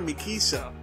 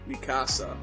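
First: The middle vowel is a short 'ih' sound. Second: The middle vowel is an open 'ah' sound. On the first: The speaker calls it wrong. "They call her Mikisa" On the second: The speaker calls it right. "Why are they not calling Mikasa Mikasa?"

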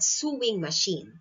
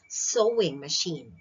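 First: The first vowel of sewing sounds like 'sue'. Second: The first vowel of sewing sounds like 'so'. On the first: The speaker calls it wrong. "It's not sewing machine" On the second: The speaker calls it right. "It's sewing machine"

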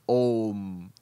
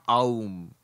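First: The word starts with a single o vowel. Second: The word starts with a gliding a-u vowel. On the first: The speaker calls it right. "it becomes Om" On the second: The speaker calls it wrong. "not Aum"

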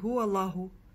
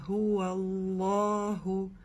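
First: The vowel after the l is short. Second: The vowel after the l is drawn out long. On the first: The speaker calls it wrong. "не гуаллаху" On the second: The speaker calls it right. "Протягиваем алиф, читаем долго"

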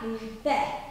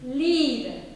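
First: The final vowel is given full, accented weight. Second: The final vowel is a weak, unaccented schwa. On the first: The speaker calls it wrong. "not Liebe" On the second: The speaker calls it right. "it can't be accented"

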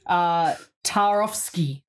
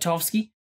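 First: It is said carefully with the K sound pronounced. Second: It is said quickly with the K sound dropped. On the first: "there you go, I actually pronounce it" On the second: "I want to like quickly get through it, I don't want to say the K"

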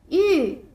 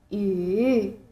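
First: The pitch falls sharply from high to low. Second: The pitch dips low, then rises.

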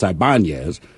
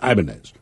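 First: The name is pronounced the Spanish way. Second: The name is pronounced the Japanese way. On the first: The name has a Latin origin. "if it's Latin, it's Ibanez" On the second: The name has a Japanese origin.

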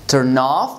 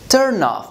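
First: The stress falls on the word 'off'. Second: The stress falls on the word 'turn'. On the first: It is a verb: to make something stop working or lose interest. "we stress the second word" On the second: It is a noun: something that makes you lose interest. "we stress the first word"

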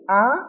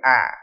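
First: The pitch goes up a little. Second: The sound is blocked at its end. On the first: "cho nó lên một tí thì á" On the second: "cho nó chặn ở phía đuôi thì nó thành ả"

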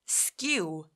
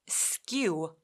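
No difference in how they are said.

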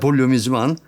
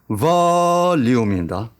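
First: The word is said quickly and run together. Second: The word is said slowly with clear syllables.

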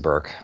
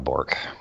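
First: The name is said with the vowel of 'burn'. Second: The name is said with the vowel of 'fork'. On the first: This is the proper pronunciation of the name. The speaker calls it right. "I'm just a Burke" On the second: This is how the name is typically said in America. The speaker calls it wrong. "but I'm not a Bork"

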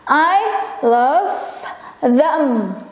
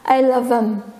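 First: The word them is said in full. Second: The word them is reduced to em. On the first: "kalau posisinya sebagai objek" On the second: "versi singkatnya"

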